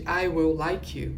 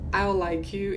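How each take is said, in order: First: "I will like you" slowly, full "will"; uncontracted form. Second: "I'll like you" with I'll reduced to "a"; contracted I'll. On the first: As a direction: spell out every word of "I will like you". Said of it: "em vez de". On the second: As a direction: swallow the will into "I'll". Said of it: "Eles falam". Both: Shown as a demonstration.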